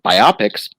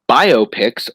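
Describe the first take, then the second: First: The word is split as bi-opics. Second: The word is split as bio-pics. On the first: The speaker calls it wrong. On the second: The speaker calls it right.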